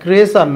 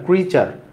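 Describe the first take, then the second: First: The middle consonant is a soft 's' sound. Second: The middle consonant is a 'ch' sound. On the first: The speaker calls it wrong. "এটা ক্রেসার না" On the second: The speaker calls it right.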